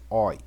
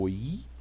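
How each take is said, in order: First: The o sound is stronger and more stressed. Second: The o sound is weaker and less stressed. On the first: It is the diphthong written with omega. "ele é um O mais tônico" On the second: It is the diphthong written with omicron. "o oi é menos tônico"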